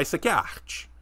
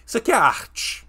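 First: Said in the usual way. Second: Higher and louder, leaning hard on aqui; emphatic insistence. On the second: Real, not acted. Streamer insisting to chat this clip is art, emphatic. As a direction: isso aqui é arte with aqui punched high.

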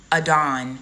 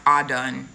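First: Adon with an unstressed "uh" first, then "DON"; as spelled. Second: Adon said as AH-dun, like "all done"; pronounced "all done". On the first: Reading Adon out as spelled before correcting it, uh-DON. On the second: Teaching viewers the actual pronunciation, Adon as AH-dun. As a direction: open "ah" then "dun" in Adon. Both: Shown as a demonstration. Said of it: "It's actually pronounced Adon".

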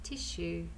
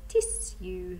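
First: "Tissue" said as tishoo, soft sh in the middle. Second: "Tissue" said as tiss-you, careful s then a clear y; a posh, careful "Tissue" with the s and y sounded apart. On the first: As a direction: say "Tissue" the everyday way, with a sh sound. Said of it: "it sounds like there's a sh". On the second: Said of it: "You have to speak in a posh voice". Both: Shown as a demonstration.

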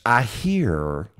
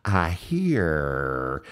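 First: Light imitation of an old Alabama friend; imitating Norman Holland. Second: Lightly voiced old Alabama friend saying "I hear"; imitating Norman Holland. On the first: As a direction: drop into a friend's drawling voice, lightly. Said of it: "that's me imitating my old friend Norman Holland". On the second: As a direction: mimic his catchphrase "I hear" in his voice. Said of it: "He'd always go".

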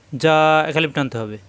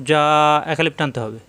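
Both takes have the same delivery.

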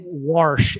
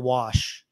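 First: "warsh" with an R added before the SH; "warsh", Missouri Bootheel style; dad's regional pronunciation. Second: Said in the usual way. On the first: Retold or imitated. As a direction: put an R into wash, saying "warsh". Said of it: "instead of wash". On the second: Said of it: "instead of".

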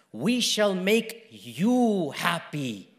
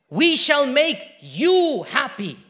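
First: Slow, drawn-out, low reassurance; hushed, lingering comfort; tender promise. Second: Slow, loud, high proclamation; emphatic, stretched words at raised pitch; proclaimed promise. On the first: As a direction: promise it gently, word by word. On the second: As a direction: ring it out with conviction. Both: Retold or imitated. Same promise, tender then proclaimed.

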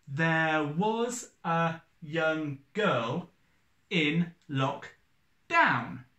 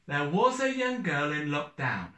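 First: Very slow, each syllable spaced out; syllable by syllable, unhurried; counting syllables. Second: Put-on "There was a young girl in lockdown" with a da-da-DA lilt; lilting limerick beat on "lockdown"; bouncy limerick rhythm. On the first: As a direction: tap out every syllable slowly. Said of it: "Eight syllables". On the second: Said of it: "they all start with the same rhythm". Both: Shown as a demonstration.

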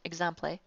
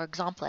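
First: "exemple" said ig-ZAM-play; mock-mispronounce "exemple" as ig-ZAM-play; joke pronunciation. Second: "exemple" said ig-ZOM-play; mock-foreign "exemple", ig-ZOM-play; joke pronunciation. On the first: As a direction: end "exemple" in -play, short a in the middle. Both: Shown as a demonstration. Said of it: "some people somewhere may pronounce it".

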